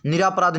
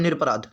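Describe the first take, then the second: First: निरापराध with long "raa", "ni-raa-pa-raadh"; wrong pronunciation. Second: निरपराध as "nir-pa-raadh", no long vowel after r; correct pronunciation. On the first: Teacher rejecting the faulty form, निरापराध said with long "raa". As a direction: say निरापराध with an added long vowel after r. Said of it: "नहीं होता". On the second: Teacher giving the right word, निरपराध said as "nir-pa-raadh". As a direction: say निरपराध with r closing the first syllable. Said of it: "शब्द क्या होता है?". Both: Shown as a demonstration.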